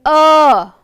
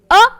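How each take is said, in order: First: The vowel is drawn out and long. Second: The vowel is short and quick. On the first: "earth has a long sound" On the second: "Thunder has a small sound"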